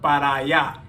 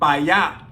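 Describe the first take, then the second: First: The first word is said with both syllables. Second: The first word is shortened to one syllable. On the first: "instead of para allá" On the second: "And pa allá"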